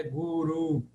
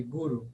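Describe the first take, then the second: First: GURU with a lengthened, stressed final u, gu-RUU; long vowel. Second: GURU with brief u's, GU-ru; short vowels. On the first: Teacher showing the mistaken form, long-vowelled GURU. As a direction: stretch the last vowel of "guru". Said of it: "Guru se fosse longa". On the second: Teacher showing the short form, short-vowelled GURU. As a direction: keep both vowels of "guru" short, stress first. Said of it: "Em breve". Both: Shown as a demonstration.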